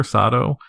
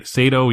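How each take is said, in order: First: Sato said as SAH-doe with a rising end; Sato, SAH-doe, the correction; Sato corrected. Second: Sato said as SAY-toe; the first try, Sato with a long A like say; Sato, SAY-toe, before the fix; Sato misread. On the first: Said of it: "Sato either". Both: Real, not acted.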